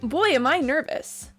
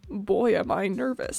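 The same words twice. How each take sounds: First: It is said in a stereotypical hero voice. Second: It is said in a low, sweet-talking voice.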